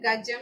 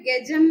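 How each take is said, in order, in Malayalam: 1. ആദ്യത്തെ സ്വരം ശുദ്ധമായ 'a' ആണ്. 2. ആദ്യത്തെ സ്വരം 'e' പോലെ കേൾക്കുന്നു. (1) "സംസ്കൃതത്തിൽ ഗജം എന്ന് പറയണം" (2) "മലയാളത്തിൽ ഗജം എന്നാണ് നമ്മൾ പറയുന്നത്"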